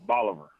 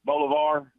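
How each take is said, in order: First: Bolivar as BAH-luh-ver, rhyming with Oliver; local pronunciation. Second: Bolivar as BOH-luh-var, ending in a full "var"; mispronounced town name. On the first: Caller corrects the hosts, Bolivar said to rhyme with Oliver. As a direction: say Bolivar with an open A and a weak "ver" ending. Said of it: "Local pronunciation is". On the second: Caller mimics the host's error, Bolivar said BOH-luh-var. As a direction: say Bolivar with long O and open last syllable. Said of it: "you pronounced it Bolivar". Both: Shown as a demonstration.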